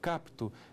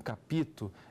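First: The p goes straight into the t. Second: An extra vowel is inserted between p and t. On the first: The speaker calls it right. "eu capto" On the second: The speaker calls it wrong. "eu não capito"

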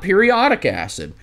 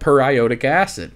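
First: The first word is said like ordinary periodic. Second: The first word is said as per plus iodic. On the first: It suggests something occurring at intervals. The speaker calls it wrong. "Not periodic acid" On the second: It names the acid containing iodine, HIO4. The speaker calls it right. "You read it as written"

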